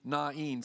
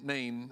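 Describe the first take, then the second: First: The name gets its technical scholarly pronunciation. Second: The name gets its familiar everyday pronunciation. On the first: This is the more precise, scholarly form. "the technical pronunciation would be Nain" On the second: This is how the speaker always said it. "I spent my whole life calling it Nain"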